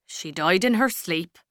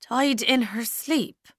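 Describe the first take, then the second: First: Said in the usual way. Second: Slow, higher, disbelieving echo; a numb slow question; stunned repeat. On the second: Acted. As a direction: repeat it as if it can't be true. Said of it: "Ailish repeated".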